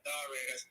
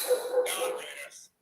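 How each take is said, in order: First: Said in the usual way. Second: Drawn out high and slow, breathy; hammed-up announcer drawl; stretched announcer call. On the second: Shown as a demonstration. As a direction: stretch The Raiders way out like a hype call. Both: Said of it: "Should I say it like that?".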